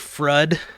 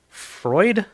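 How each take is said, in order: First: The vowel is not an oy sound. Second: The vowel is an oy sound. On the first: The name is read the way it looks on screen. "I'm gonna call it Frud because it looks like Frud" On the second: The name is said the standard way. "Freud is how you pronounce it"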